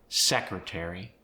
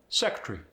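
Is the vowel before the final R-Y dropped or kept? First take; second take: kept; dropped. First: The vowel before the final R-Y is kept. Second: The vowel before the final R-Y is dropped.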